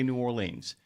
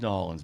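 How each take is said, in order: First: It is said the way Ohio speakers say it. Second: It is said in the rejected, non-local way. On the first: The speaker is from outside the city. The speaker calls it right. "If you're from Ohio, you can say New Orleans, completely acceptable" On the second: No real place goes by this name. The speaker calls it wrong. "There ain't no such place as New Orleans"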